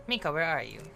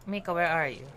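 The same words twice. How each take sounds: The two takes are said the same way.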